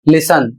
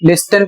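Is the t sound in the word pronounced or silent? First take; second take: silent; pronounced. First: The t sound is left out entirely. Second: The t sound is pronounced in the middle. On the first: The speaker calls it right. "इसे आपको पढ़ना है लिसन" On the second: The speaker calls it wrong. "बहुत से लोग लिस्टन पढ़ते हैं जबकि गलत है"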